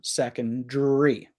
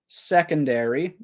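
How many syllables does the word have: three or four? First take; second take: three; four. First: One syllable is dropped, leaving three. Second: All four syllables are pronounced. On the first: "she would take out one of the syllables" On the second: "I would pronounce most of the syllables"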